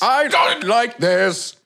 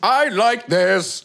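First: Slow, higher, stretched "I don't like this"; drawn-out verdict. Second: Slow, higher, stretched "I like this"; drawn-out verdict. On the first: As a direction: drag out "I don't like this" as the set answer. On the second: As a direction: drag out "I like this" as the set answer. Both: Shown as a demonstration. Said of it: "it needs to be like this".

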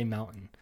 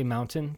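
First: MOUNTAIN with a caught, unreleased T; swallowed T. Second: MOUNTAIN with the T sounded, "moun-tin"; pronounced T. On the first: Host admitting his habit to friend, MOUNTAIN with swallowed T. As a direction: let the T drop out of MOUNTAIN. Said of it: "but I say mountain". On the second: Host showing the wished-for way, MOUNTAIN with a clear T. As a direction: carefully release the T in MOUNTAIN. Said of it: "I want to say mountain". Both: Shown as a demonstration.

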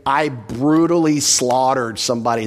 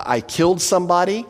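First: "brutally slaughtered" leaned on heavily; emphatic. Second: Said in the usual way. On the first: Shown as a demonstration. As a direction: put weight on "brutally slaughtered" to show emphasis. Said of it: "It's very emphatic". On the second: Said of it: "It's very basic. It just gives the facts".

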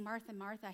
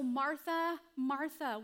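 First: Softly, with love and compassion; gentle, quiet repeated name; tender. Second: Called out louder and higher; raised, emphatic repeated name. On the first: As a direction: say her name twice like a caring friend. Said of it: "when Jesus is saying". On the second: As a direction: call her name with urgency. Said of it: "And so". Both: Retold or imitated.

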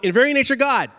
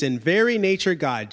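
First: IN VERY NATURE GOD punched higher as one block; "in very nature God" in emphatic bold; bold-font emphasis. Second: Said in the usual way. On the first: Shown as a demonstration. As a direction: say "in very nature God" raised and forceful, like bold type. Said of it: "he's emphasizing, bold font".

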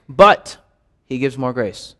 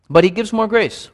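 First: Meditative read hitting "But" hard; stress on BUT. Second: "more" lifted and pushed, then the voice falls away; meditative read with the weight on "more"; stress on MORE. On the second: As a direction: lean on "more" in "But he gives more grace". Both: Shown as a demonstration. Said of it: "each time emphasize a different word".

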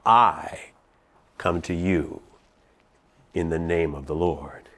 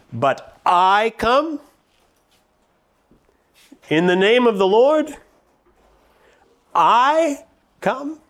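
First: "I" set apart, then "come to you in the name of the Lord" low and soft; quiet emphasis on I. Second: "I come" lifted high and slow, "I" leaned on; stress on I. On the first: Preacher showing the congregation David's words, hushed and deliberate. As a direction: pause after "I", then hush the rest. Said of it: "That's what David said". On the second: Preacher stressing David's emphatic I, high and slow. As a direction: pitch "I come" up high and draw it out. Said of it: "the very emphatic form of the Hebrew pronoun I". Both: Shown as a demonstration.

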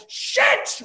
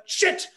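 First: Very high, shrieking yelp; top-of-lungs curse. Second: Sharp pained yelp, pitch jumps up; yelled curse. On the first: Narrator bashes shin a second time, shrieking curse. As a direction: shriek it as the same shin hits again. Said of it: "I yelled out at the top of my lungs". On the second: Narrator cracks shin on coffee table, sharp yelp. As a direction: blurt it out as the shin hits the table. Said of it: "and yelled out". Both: Retold or imitated.

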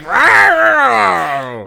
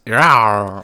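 First: Loud mock roar, pitched up; playful monster growl. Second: Playful monster growl. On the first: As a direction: roar it out like a cartoon beast. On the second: Retold or imitated. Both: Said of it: "He just roars at him".

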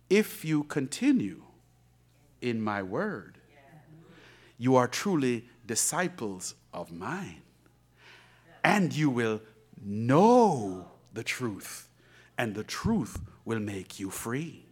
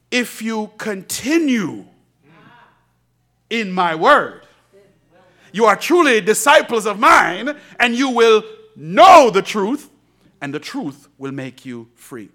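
First: Slow, soft scripture reading, lower; quiet reverent reading. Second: Slow, louder, rising force; building preached verse. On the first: Pastor reads scripture softly to the church. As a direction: read it hushed and reverent. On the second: Pastor preaches the verse again to the church, louder. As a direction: preach it to the rafters. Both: Acted.

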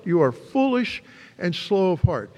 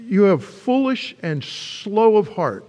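First: Said in the usual way. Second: Slow, weighty "You have foolish and slow of heart"; slow rebuke. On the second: Acted. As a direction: lean on "foolish", drawn out. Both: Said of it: "he says".

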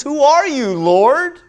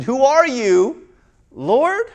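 First: High loud demanding cry. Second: Slower, wondering "Who are you, Lord?" with a rise; questioning. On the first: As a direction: call up to the light. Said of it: "He says". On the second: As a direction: ask it in awe. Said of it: "Or maybe it was a question". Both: Acted.

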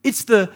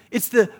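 The two takes are said the same way.

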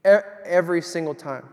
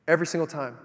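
First: "every single time" said again louder, "E-, every" restarted with a push; emphatic repeat. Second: Said in the usual way. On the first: Shown as a demonstration. Preacher stresses how often God shows up, louder emphatic repeat. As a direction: hit "every" hard on the repeat.

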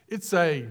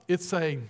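Both takes have the same delivery.

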